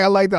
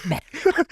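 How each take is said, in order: First: Lightly voiced sly sensei; a near-plain mocking quote; imitating the line. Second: Higher, creepy mock Joker take; Joker-ish. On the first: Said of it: "The way he says". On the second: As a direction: push it into a giggling villain. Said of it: "look like the Joker".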